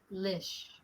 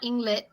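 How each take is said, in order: First: The ending is said clearly as 'lish'. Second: The ending is not said as 'lish'. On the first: The speaker calls it right. "the second half of that word is lish" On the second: The speaker calls it wrong. "it's not Inglit"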